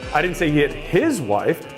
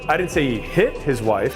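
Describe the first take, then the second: First: The stress is on the word his. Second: The stress is on the word hit.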